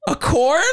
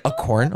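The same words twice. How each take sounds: First: Incredulous. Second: Said in the usual way. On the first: Retold or imitated. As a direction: squeak out "A corn?" in disbelief. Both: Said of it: "I was literally like".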